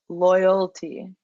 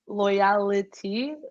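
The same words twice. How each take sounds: First: It is said plainly, without extra vowels. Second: It carries extra 'ee' vowels, like humility. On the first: The speaker calls it right. "but it's just loyalty" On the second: The speaker calls it wrong. "you're going loyalty like humility"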